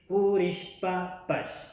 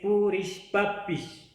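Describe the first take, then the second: First: The word ends with the syllable pash. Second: The word ends with the syllable pish. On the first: It is the northern highland dialect. "En Imbabura, en el norte de la sierra, lo dicen, la terminación es pash" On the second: It is the central and southern highland dialect. "es un dialecto del centro y sur de la sierra"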